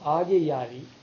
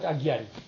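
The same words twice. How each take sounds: First: The word is said in its original, fuller form. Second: The word is said in its altered, corrupted form. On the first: It means friendship with fire. The speaker calls it right. "instead of Agyari" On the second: It is the everyday name people use. The speaker calls it wrong. "you call it Agyari"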